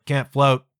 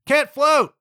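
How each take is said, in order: First: Said in the usual way. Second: Can't float! yelped high and louder; panicked yelp. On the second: Retold or imitated. A panicking learner in the pool yelps Can't float!. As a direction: blurt it out in a panic.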